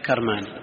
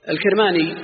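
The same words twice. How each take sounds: First: كرماني with an a after k, "Karmani"; fatha on kaf. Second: الكرماني with an i after k, "al-Kirmani"; higher, set-apart الكرماني, first vowel i: "Kir"; kasra on kaf. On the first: Teacher quotes al-Nawawi's variant, كرماني with fatha, "Karmani". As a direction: open the first vowel of كرماني to "Kar". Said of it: "أنه بفتح الكاف". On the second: Teacher spells out the author's name, الكرماني with kasra, "Kirmani". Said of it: "بكسر الكاف". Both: Shown as a demonstration.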